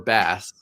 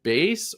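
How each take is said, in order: First: The vowel sounds like the one in 'mass'. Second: The vowel sounds like the one in 'face'. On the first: It is the word for the fish. "I love bass fishing so much" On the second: It is the word for a foundation. "like base foundation"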